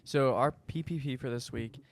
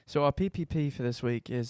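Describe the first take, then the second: First: It is said in his normal accent. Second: It is said in a put-on British accent.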